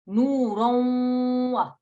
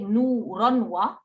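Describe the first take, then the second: First: The nasal sound before wa is held for two counts. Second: The nasal sound before wa is cut short. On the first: The speaker calls it right. "we hold it for two counts" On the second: The speaker calls it wrong. "we don't say nuron wa"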